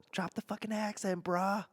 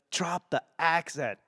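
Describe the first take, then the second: First: Higher, softer put-on Boston voice; Boston accent. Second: Said in the usual way. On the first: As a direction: slip into a high Boston accent. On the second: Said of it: "the way I've been doing that".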